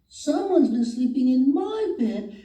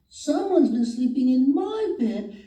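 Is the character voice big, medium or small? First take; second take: small; small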